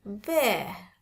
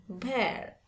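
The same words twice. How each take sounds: First: "bear" falling, no final R; British demo of "bear", R dropped. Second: "bear" with the final R sounded; the non-British "bear", R pronounced; American "bear". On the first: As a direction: end "bear" on the open vowel. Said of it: "Kalau British lebih seneng pakai". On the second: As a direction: close "bear" on an audible R. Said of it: "bukan bear". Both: Shown as a demonstration.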